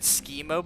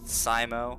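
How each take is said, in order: First: The name begins with a 'chemo'-like sound. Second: The name begins with a 'sci'-like sound. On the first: "it makes them think of like schemotherapy" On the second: "like S C I, as in like science fiction"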